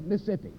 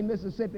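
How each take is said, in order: First: Mississippi clipped to Missippi, middle syllable dropped; native Mississippi pronunciation. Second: Said in the usual way. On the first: Shown as a demonstration. Preacher shows how Mississippi natives say Mississippi as Missippi. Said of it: "they say Mississippi". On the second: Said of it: "They don't say Mississippi".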